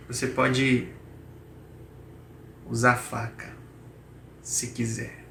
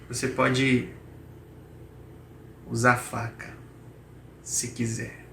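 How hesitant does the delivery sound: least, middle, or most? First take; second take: most; most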